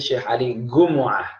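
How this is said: The surname begins with a hard g sound.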